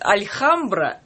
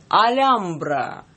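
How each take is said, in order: First: A soft L is followed by a KH sound. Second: No consonant is heard between the L and the A. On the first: Some people read the name this way. "некоторые читают альхамбра" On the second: This is how the name actually sounds. "Я сейчас попробую произнести это правильно"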